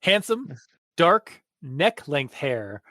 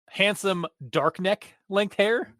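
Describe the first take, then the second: First: Neck length is grouped together after dark. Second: Dark neck is said together as one word.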